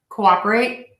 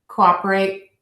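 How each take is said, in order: Both takes have the same delivery.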